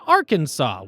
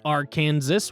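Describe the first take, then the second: First: The final S is silent. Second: The final S is pronounced. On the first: The speaker calls it right. "with three syllables, a silent final S, and accents on the first and last syllables" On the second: The speaker calls it wrong. "Mispronouncing it as Arkansas was labeled an innovation to be discouraged"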